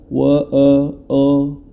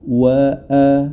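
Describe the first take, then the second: First: The vowel is rounded toward an o sound. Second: The vowel is a full, open a sound. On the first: The speaker calls it wrong. "jangan sampai dibaca wa a o" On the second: The speaker calls it right. "jangan sampai a-nya ini tidak sempurna"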